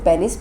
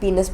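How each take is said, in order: First: The first syllable sounds like 'pen'. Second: The first syllable sounds like 'pee'. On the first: The speaker calls it wrong. "इसको पेनिस pronounce नहीं करते हैं" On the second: The speaker calls it right. "पीनस pronounce करते हैं"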